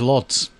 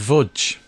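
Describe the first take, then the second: First: It begins with an L sound, ending in ts. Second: It begins with a V sound, ending in dge. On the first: The speaker calls it wrong. "I thought it was lots. But it's not" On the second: The speaker calls it right. "it's Vudge"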